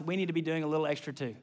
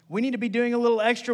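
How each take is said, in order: First: Softer and quicker, tossed off under the breath; a quick hushed preview before saying it out; quiet aside. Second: Said in the usual way. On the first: Shown as a demonstration. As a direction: murmur it fast to yourself first.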